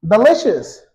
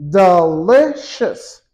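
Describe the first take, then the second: First: Said in the usual way. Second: "Delicious" slowly broken as de, li, cious; split into syllables. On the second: Shown as a demonstration. Teacher counting three syllables for learners, slow syllable-by-syllable demonstration. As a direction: say "Delicious" in three separate beats. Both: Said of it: "Three syllables".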